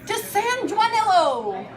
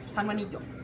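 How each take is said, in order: First: The ending is said like 'Nilo', as spelled. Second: The ending is said differently from 'Nilo'. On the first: The speaker calls it wrong. "it looks like San Juan Nilo" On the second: The speaker calls it right. "Very different"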